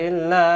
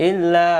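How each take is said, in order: No difference in how they are said.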